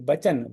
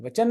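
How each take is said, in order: First: The word begins with a b sound. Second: The word begins with a v sound. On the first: The speaker calls it right. "बचन, वचन नहीं यहाँ पे" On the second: The speaker calls it wrong. "वचन नहीं यहाँ पे"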